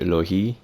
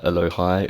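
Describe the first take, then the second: First: The name ends with a sound like 'hee'. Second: The name ends with a sound like 'hi'.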